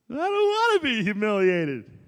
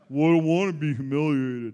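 First: It is said in a whiny, unmanly voice. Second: It is said in a deeper, manly voice.

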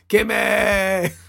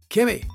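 First: It is said in a Timmy voice from South Park. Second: It is said in his normal voice.

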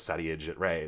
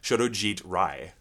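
First: The name is said with anglicized sounds. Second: The name is said with Bengali sounds. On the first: "otherwise known as" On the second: "I'm going to pronounce this correctly"

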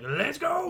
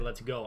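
First: It is said imitating Billy Madison. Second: It is said in a plain, ordinary voice.

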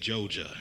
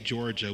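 First: The word is said in a Southern accent. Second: The word is said in a standard accent. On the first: "we say Joja" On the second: "People from down south don't say Georgia"

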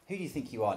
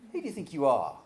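First: It is asked as a plain, sincere question. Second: It is asked in an indignant, challenging tone. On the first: The speaker genuinely asks about identity. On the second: The speaker rebukes someone for overstepping.

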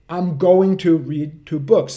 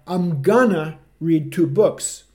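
First: Going to is pronounced in full, carefully. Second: Going to is reduced to gonna at normal speed. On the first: "Você vai falar" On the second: "Se a pessoa fala de uma forma normal, velocidade normal"

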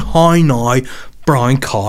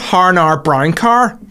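First: The vowels sound like 'ow', with no r. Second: The vowels sound like 'ar', with an r. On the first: The speaker calls it right. "There's no R in it" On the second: The speaker calls it wrong. "It's not har nar brown car"

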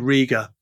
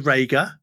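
First: The first vowel does not sound like 'ray'. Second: The first vowel sounds like 'ray' in raygun. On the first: This is how British people say the name. "Brits say Riga" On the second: This is how Australians say the name. "Australians say Rager"

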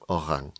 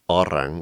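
First: The r sounds French-like, from the throat. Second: The r sounds plain, not French-like. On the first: This is the local island dialect form. "which is more like a French orang" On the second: This is the mainland form of the word. "which is the mainland Malay"

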